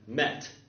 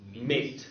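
First: The vowel is a short 'eh' sound. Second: The vowel is an 'ay' sound. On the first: This is how the word sounded around the 1500s. "in about the 1500s, this word was pronounced, I think, met" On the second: This is how the word sounded somewhat later. "Then after a while, it was pronounced mate"

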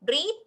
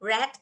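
First: The vowel is long, like 'reed'. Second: The vowel is short, like 'red'. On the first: It is the base present form. "ก็คืออ่านว่า" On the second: It is the past form. "ช่อง 2 ช่อง 3 จะอ่านเป็น red"

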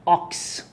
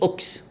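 First: The vowel is an open 'ah' sound. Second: The vowel is a rounded 'oh' sound. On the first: The speaker calls it right. "الكلمة دي هتبقى أوكس" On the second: The speaker calls it wrong. "يبقى مش أوكس"

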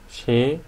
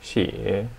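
First: The pitch rises from mid to high. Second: The pitch dips low, then rises.

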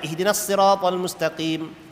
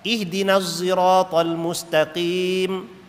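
First: Sirat begins with a heavy emphatic s sound. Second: Sirat begins with a voiced z-like sound. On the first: "Sad, sad kan" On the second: "Ada yang baca dengan Zah"

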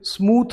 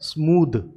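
First: The final consonant is voiceless. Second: The final consonant is voiced. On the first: The speaker calls it wrong. "जो कि गलत है" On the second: The speaker calls it right. "इसे बोला जाता है स्मूद"

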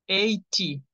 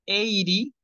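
First: It has a British accent with a clear t. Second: It has an American accent with a soft t. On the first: "80, pronunciación británica" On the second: "80 y 80, pronunciación de Estados Unidos"

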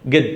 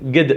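First: It starts with a hard g sound. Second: The same.

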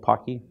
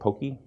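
First: The first vowel is a short 'o' sound. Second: The first vowel is a long 'oh' sound. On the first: It sounds like the name of a chocolate stick candy. The speaker calls it right. "Pocky is in fact what this is pronounced at" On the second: It sounds like the name of a cartoon horse. The speaker calls it wrong. "You'll see people pronouncing it Pokey"

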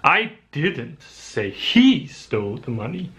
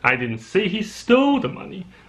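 First: The word 'he' is stressed. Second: The word 'stole' is stressed. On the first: Someone else took it. "I think someone else took it" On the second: He may have only borrowed it. "Maybe he just borrowed it"

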